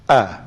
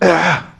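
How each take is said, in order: First: The vowel starts cleanly with no breath. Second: The vowel carries an audible puff of breath. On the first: The speaker calls it right. "ada nafas tak? Tak ada lah" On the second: The speaker calls it wrong. "Kalau bunyi ah, ha, tu ada tu. Ha, itu tak betul lah"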